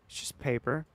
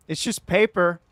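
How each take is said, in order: First: "It's just paper" soft with a rising end; soft questioning. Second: "It's just paper" loud and higher, falling; loud insistence. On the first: Streamer repeating the defence to chat, soft and rising. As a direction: quietly shrug it off. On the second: Streamer defending the fingernail to chat, loud insistence. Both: Real, not acted.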